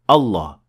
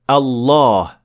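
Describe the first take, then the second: First: The vowel after the double l is short. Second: The vowel after the double l is long. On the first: The speaker calls it wrong. "We don't say Allah" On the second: The speaker calls it right. "We say Allah. There is definitely an alif here with a natural mad of two harakat"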